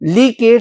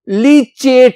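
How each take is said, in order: First: The middle consonant is a k sound. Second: The middle consonant is a ch sound. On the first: "लीकेट भी कह लो" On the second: "लीचेट भी कह लो"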